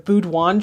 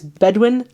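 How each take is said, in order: First: The first syllable sounds like 'boo'. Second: The first syllable sounds like 'beh'. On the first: The speaker calls it wrong. "I called it like the Boudouin tribes" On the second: The speaker calls it right. "but it's Bedouin"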